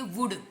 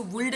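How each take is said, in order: First: वुड with no l sound; correct pronunciation. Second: वुल्ड with a sounded l, the wrong way; teacher shows the mistaken वुल्ड; wrong pronunciation. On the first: Teacher gives students the right वुड. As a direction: say वुड short and clean. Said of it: "वुल्ड नहीं है, वुड". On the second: Teacher warns students against saying वुल्ड. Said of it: "इसको वुल्ड नहीं बोलेंगे". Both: Shown as a demonstration.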